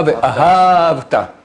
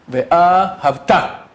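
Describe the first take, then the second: First: Ve'ahavta slow, stress on the second syllable; Ve'ahavta, wrong stress. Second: Ve'ahavta slow, stress on first and third syllables; Ve'ahavta, correct stress. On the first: Rabbi demonstrates the mistaken reading, slow. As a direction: say Ve'ahavta slowly, accent on the second. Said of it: "Et pas". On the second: Rabbi demonstrates correct reading to class, slow. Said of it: "Premier, troisième". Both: Shown as a demonstration.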